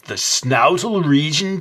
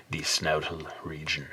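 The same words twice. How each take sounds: First: Higher, slow incredulous echo of the word "snoutal"; mock skeptic. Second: Half-whispered "snoutal region", fond and low; hushed. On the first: Mocking his own made-up word as a disbelieving friend, incredulous. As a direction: play a doubting friend repeating the word slowly. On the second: Real, not acted. Coining "snoutal region" for a horse's snout, hushed. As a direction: murmur the made-up word lovingly. First take of the word.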